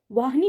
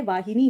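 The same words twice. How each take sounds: First: वाहिनी squeezed to vaah-ni, no middle i; वाहिनी with the i dropped; वाहिनी as the common mistake, two syllables; wrong pronunciation. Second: वाहिनी in full, vaa-hi-ni; वाहिनी with the short i sounded; वाहिनी said correctly, three syllables; correct pronunciation. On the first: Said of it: "वाहिनी नहीं होता है". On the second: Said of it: "वाहिनी होता है". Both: Shown as a demonstration.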